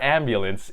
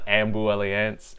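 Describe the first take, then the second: First: The word is said plainly, without emphasis on 'la'. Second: The 'la' part of the word is emphasized. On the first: This is the ordinary, unplayful way to say the title. "if you are a boring person and don't like to say fun movie titles" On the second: This follows the letters highlighted in the trailer, as a playful title. "the L and the A are highlighted, so I like to call it Ambulance"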